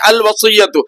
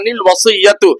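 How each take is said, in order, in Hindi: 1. शब्द स्वर से शुरू होता है, न नहीं है। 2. शब्द की शुरुआत में एक अतिरिक्त न की आवाज़ है। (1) "अगर रुक गए तो निल वसीयतु बिल्कुल नहीं पढ़ेंगे, बल्कि अल वसीयतु" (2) "अगर मिला के पढ़ना है"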